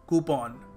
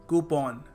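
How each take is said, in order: The two takes are said the same way.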